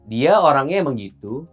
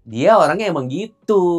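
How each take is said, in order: First: The voice stays level as if continuing. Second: The sentence ends forceful and emphatic. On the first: More is still to come. "Kalau kalau koma" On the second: It is an exclamation. "Kalau tanda seru?"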